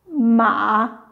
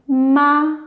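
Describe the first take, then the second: First: The pitch dips low, then rises again. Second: The pitch stays high and level throughout.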